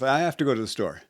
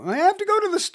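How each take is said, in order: First: The voice is at a lower, calmer pitch. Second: The voice is pitched highest and most energetic. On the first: "I started with" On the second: "ultimately get to"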